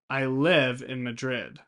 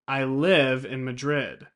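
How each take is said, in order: No difference in how they are said.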